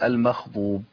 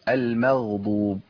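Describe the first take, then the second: First: The gh sound is breathy, like a kh. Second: The gh sound is voiced, without escaping breath. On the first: The speaker calls it wrong. "كتير من الناس بيقول المخضوب، يبدو لها بخاء" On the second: The speaker calls it right. "عايزين ماشي فيها الصوت بس، لكن النفس لا"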